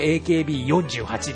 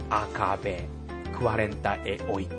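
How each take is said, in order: First: Letters and number are read with English names. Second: Letters and number are read with Portuguese names. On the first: "日本語で言うとAKB48" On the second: "ポルトガル語で発音するならば"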